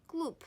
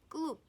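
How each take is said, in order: The two takes are said the same way.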